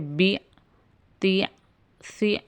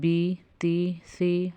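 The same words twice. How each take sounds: First: The syllables are cut off with an abrupt jolt. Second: The syllables are said smoothly without a jolt. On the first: The speaker calls it wrong. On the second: The speaker calls it right.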